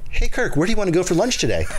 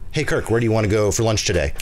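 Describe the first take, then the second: First: The voice is pitched much higher than usual. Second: The voice is at its usual speaking pitch. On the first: "just say that higher" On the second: "That was your normal voice"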